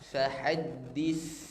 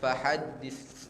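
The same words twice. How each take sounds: First: The final s sound is soft and gentle. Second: The final s sound is harsh and forceful. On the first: The speaker calls it right. "Dia harus halus" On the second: The speaker calls it wrong. "enggak boleh fahaddis. Nah, ini enggak halus ini ya"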